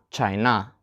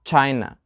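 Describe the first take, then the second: First: ChiNA, weight moved onto a long final NA; lower, softer "China" with stressed -NA; wrong second-syllable stress. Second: CHIna, strong CHI and weak falling -na; "China" with the beat up front; stress on first syllable. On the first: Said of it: "not China". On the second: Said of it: "We put the stress for two syllable nouns on the". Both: Shown as a demonstration.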